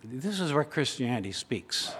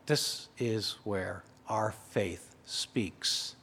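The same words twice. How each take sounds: First: Said in the usual way. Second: Much softer, slow and lower, almost under the breath; hushed. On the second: Shown as a demonstration. Preacher restating the line to the congregation, hushed and slow. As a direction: drop to a slow hush so the room leans in.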